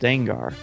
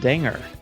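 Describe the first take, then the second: First: The name is said as 'Den-gar', with a short e. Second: The name is said like 'danger', with a long a. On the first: "Dengar is pronounced Dengar" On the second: "Why isn't he pronounced Danger?"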